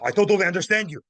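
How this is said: It is said in an aggressive, harsh tone. The listener is being confronted. The speaker calls it wrong. "Not aggressive, not"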